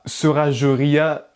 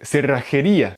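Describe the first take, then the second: First: It is pronounced with French sounds. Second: It is pronounced with Spanish sounds. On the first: The speaker calls it wrong. "avec la prononciation française" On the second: The speaker calls it right. "avec le J qui est prononcé R et le double R qui est prononcé R"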